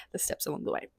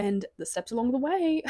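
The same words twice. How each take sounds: First: Unvoiced soft whisper on the echo; near-silent whispered echo of the steps along the way; hushed, savoring repeat. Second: Said in the usual way. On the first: Shown as a demonstration. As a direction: breathe the phrase again, savoring it.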